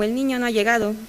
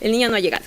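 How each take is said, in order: First: The pitch rises then falls on the stressed syllable. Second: The pitch falls steadily toward the end. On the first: "esta sería la forma circunfleja" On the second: "se observa este descenso"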